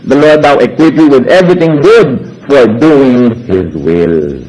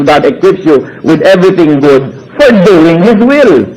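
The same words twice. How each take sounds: First: Slow, measured verse reading; "will" dropped very low at the end; scripture reading. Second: Slow, even verse reading; scripture reading again. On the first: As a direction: read it like a Bible verse. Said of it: "Sabi sa Hebrews thirteen twenty-one". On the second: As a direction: read the verse steadily. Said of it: "sabi ng Hebrews thirty-one". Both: Acted.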